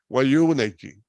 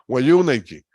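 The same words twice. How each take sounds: Both takes have the same delivery.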